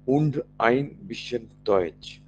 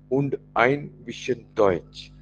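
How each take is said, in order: Both takes have the same delivery.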